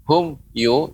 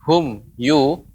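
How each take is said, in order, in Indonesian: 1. Ada jeda singkat di antara kedua kata itu. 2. Ada jeda singkat di antara kedua kata itu.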